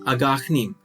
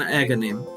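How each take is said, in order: First: The name is pronounced the Serbian way. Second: The name is pronounced the usual English way. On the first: It sounds more menacing. The speaker calls it wrong. "I kept pronouncing his name in Serbian" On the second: It sounds less menacing. The speaker calls it right. "the actual pronunciation"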